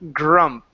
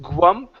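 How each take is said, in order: First: The start has a clear 'gr' with an R. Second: The start sounds like 'gw', with no R. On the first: The speaker calls it right. "It's grr, grump" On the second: The speaker calls it wrong. "instead of goo, gwump"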